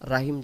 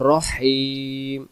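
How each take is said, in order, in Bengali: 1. h ধ্বনিটি একটি সাধারণ, হালকা h ধ্বনি। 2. h ধ্বনিটি গলা থেকে আসা একটি শ্বাসযুক্ত শিস। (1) "রাহিম যেন না আসে" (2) "এই লম্বা হাটা শোষো করে আনতে হবে"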